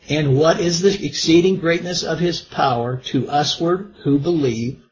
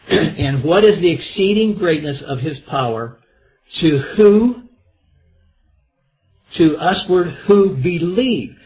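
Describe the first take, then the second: First: The words are read evenly, without extra emphasis. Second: Some words are read with extra emphasis. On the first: "I think I read over" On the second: "I need to put emphasis on some words here"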